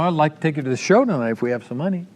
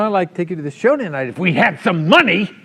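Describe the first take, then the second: First: It sounds sincere and friendly. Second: It sounds resentful and accusing.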